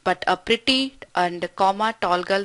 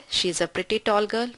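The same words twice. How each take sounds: First: Slow, a clear comma break after "pretty"; pause after pretty. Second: Pretty tall run together as one phrase; "pretty tall" said in one breath with no break, slow; no pause after pretty. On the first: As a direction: say "pretty", then stop briefly before "tall". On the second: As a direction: read "She is a pretty tall girl" slowly, without a pause after "pretty". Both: Shown as a demonstration.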